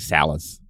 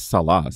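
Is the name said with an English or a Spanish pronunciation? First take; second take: English; Spanish. First: The name has an English pronunciation. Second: The name has a Spanish pronunciation. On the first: The speaker calls it wrong. "And I say Salas" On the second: The speaker calls it right. "It's Salas"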